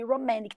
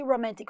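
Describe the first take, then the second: First: ROMANTIC with the T dropped, "romannic"; American-style "ro-MAN-nic" for romantic; American pronunciation. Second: ROMANTIC with the T after N sounded; British-style "ro-MAN-tic" for romantic; British pronunciation. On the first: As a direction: say romantic without a T after N. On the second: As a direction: say romantic with a clear middle T. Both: Shown as a demonstration. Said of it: "dessas pronúncias britânicas e americanas".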